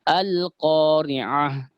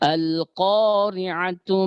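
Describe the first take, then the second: First: The word stops, ending on an h sound. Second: The word ends in tu, joined to the next. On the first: The reader pauses after the word. "ini seperti ini kalau kita berhenti" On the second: The reader continues without pausing. "ketika kita sambung ini"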